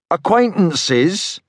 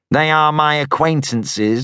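First: Slow, drawn-out sarcastic "Acquaintances?" rising. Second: Said in the usual way. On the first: A narrator's reading. Young man mocking the stranger's word, sarcastic. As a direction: stretch "Acquaintances?" mockingly, high rising end. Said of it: "I repeated sarcastically".

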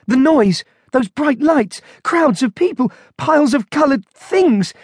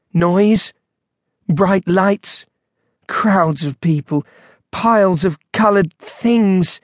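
First: High-pitched string of appalled exclamations; horrified panic. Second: Slow, hesitant listing with long pauses; dazed recollection. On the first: Monk overwhelmed by the supermarket, horrified. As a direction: reel from each sight, pitched high. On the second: Husband describing supermarket to wife, dazed. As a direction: recall each item slowly, one by one. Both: A narrator's reading.

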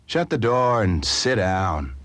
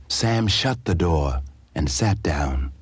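First: Gruff order. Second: Said in the usual way. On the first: A narrator's reading. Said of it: "blind man's gruff order". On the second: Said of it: "narration of the action".

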